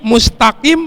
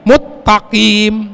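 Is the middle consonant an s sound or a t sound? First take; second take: s sound; t sound. First: The middle consonant sounds like s. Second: The middle consonant sounds like a double t. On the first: The speaker calls it right. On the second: The speaker calls it wrong.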